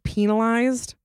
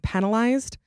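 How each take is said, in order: First: The first syllable sounds like 'peen'. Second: The first syllable sounds like 'pen'. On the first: This is the dictionary pronunciation. The speaker calls it right. "According to Google, it is penalized" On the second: This is how many people commonly say it. The speaker calls it wrong. "A lot of people say penalized"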